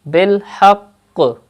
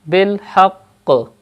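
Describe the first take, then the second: First: The word ends on a doubled q consonant. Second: The word ends on a doubled q consonant.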